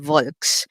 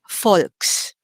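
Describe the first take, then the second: First: The word begins with a V sound. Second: The word begins with an F sound. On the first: This is the English pronunciation. "instead of saying Volks" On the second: This is the German pronunciation. "If V is pronounced like the letter F, then we say Volks"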